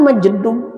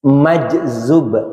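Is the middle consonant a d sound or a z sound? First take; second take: d sound; z sound. First: The middle consonant is a d sound. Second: The middle consonant is a z sound. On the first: The speaker calls it wrong. "Apaan majdub?" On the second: The speaker calls it right. "Ini nih yang benar"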